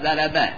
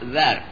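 First: The r sound is followed by a. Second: The r sound carries no vowel. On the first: "به فتح را" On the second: "به سکون را"

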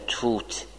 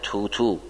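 First: The word ends on a bare t sound. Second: A u vowel follows the final t sound. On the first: The speaker calls it wrong. "نمیگن توت" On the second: The speaker calls it right. "میگن توتو، که ذمه به این تای دوم میده"

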